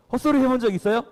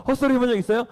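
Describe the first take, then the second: No difference in how they are said.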